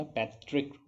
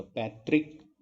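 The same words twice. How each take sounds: First: पैतृक with a vibrating ऋ; barely any i in पैतृक; correct तृ pronunciation. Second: पैतृक with a plain "trik" ending; wrong "त्रि" pronunciation. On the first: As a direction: say पैतृक as "pai-trrk". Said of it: "पैतृक होता है". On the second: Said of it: "पैतृक नहीं होता". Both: Shown as a demonstration.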